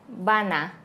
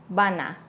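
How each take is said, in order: No difference in how they are said.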